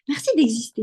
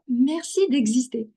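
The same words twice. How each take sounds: First: It is said with a native French accent. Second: It is said with a light American accent.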